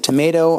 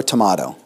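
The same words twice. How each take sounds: First: "tomato" with a long AY, tuh-MAY-toh; "ay" pronunciation. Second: "tomato" with an AH, tuh-MAH-toh; "ah" pronunciation. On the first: Lecturer asking which pronunciation is right, "tomato" with AY. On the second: Lecturer asking which pronunciation is right, "tomato" with AH. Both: Shown as a demonstration. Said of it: "Is it tomato or tomato".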